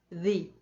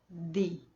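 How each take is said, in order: Both takes have the same delivery.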